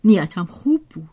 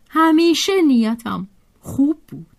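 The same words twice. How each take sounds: First: Said in the usual way. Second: همیشه lifted high, then falling away; stress on همیشه. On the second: A narrator's reading. Annette defends her intentions to Julien, stress on همیشه. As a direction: lean on همیشه, stretching the phrase out. Repeats it, adding "always.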